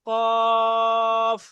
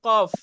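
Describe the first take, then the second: First: The vowel is drawn out long. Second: The vowel is said short and quick. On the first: The speaker calls it right. "টান দিয়ে" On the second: The speaker calls it wrong. "সহজে পড়ে ফেলছি কফ। এভাবে পড়লে হবে না।"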